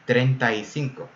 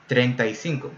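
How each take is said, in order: First: The three words run together into one. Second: The same.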